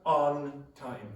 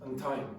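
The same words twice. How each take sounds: First: Both words are said fully and carefully. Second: The words are reduced and run together. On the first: The speaker calls it wrong. "It's not on time" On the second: The speaker calls it right. "it's on time"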